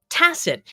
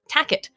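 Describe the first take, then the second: First: The middle consonant is an S sound. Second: The middle consonant is a K sound. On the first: The speaker calls it right. "he figured out how to pronounce tacit" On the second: The speaker calls it wrong. "he kept pronouncing it tacket"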